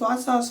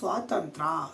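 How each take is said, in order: First: The word is slurred into 'swasasa'. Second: The word is said fully as 'swatantrya'. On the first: The speaker calls it wrong. "ಅದು ಸ್ವಾಸಾಸ ಅಲ್ಲ" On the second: The speaker calls it right. "ಅದು ಸ್ವಾತಂತ್ರ್ಯ"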